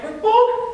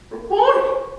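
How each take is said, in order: First: Much higher, loud cry of recognition. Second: "Rabboni!" much higher and louder with a rising end, question and exclamation at once; interrobang exclamation. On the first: Acted. Mary recognizing Jesus, crying out Rabboni loud and high. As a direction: call his name as it hits you. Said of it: "cried out in Aramaic". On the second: Shown as a demonstration. Preacher demonstrating Mary's interrobang "Rabboni!", high, loud, rising. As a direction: say "Rabboni!" as astonished question turned declaration. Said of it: "In this one inflection".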